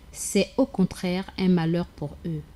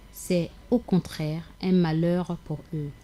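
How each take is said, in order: Both takes have the same delivery.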